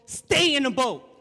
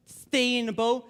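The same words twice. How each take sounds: First: "stay" punched loud and high, then falling; loud, firm stress on "stay"; emphatic command. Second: Said in the usual way. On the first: Real, not acted. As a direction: hit the word "stay" hard as an order. Repeats quote as emphatic command.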